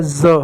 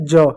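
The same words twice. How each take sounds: First: ज said as a buzzing z; dotted z sound. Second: ज said with a j as in jam; plain j sound. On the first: Teacher showing students the dotted letter, z sound. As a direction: say ज like English z, not j. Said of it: "नीचे बिंदी लग जाए". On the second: Teacher showing students the undotted letter, plain j sound. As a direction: say ज as a hard English j. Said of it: "जब इसके नीचे बिंदी लग जाए". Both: Shown as a demonstration.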